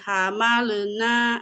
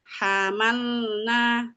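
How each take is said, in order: First: The l bounces off with an extra vowel. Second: The l is held briefly with no vowel. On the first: The speaker calls it wrong. "ada beberapa anak bacanya hamalena gitu ... contoh yang salah" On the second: The speaker calls it right. "tahan sebentar"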